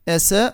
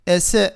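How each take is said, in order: The two takes are said the same way.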